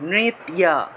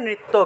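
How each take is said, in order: First: The word ends with a 'tya' sound. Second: The word ends with a 'tto' sound. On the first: This is the Sanskrit pronunciation. "সংস্কৃত উচ্চারণটা হবে নৃত্যা" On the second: This is the Bengali pronunciation. "বাংলায় বললে"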